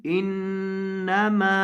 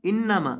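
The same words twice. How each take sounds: First: इन्नमा with the noon held nasally, slow; with ghunna. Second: इन्नमा without nasal ghunna; wrong reading. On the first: Teacher models इन्नमा with a long nasal ghunna. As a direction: hum through the nn in इन्नमा. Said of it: "नून के ऊपर गुन्ना करना है". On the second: Teacher imitates the wrong इन्नमा. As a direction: say इन्नमा flat, no nasal hold. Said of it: "अक्सर लोग इसे पढ़ देते हैं इन्नमा". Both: Shown as a demonstration.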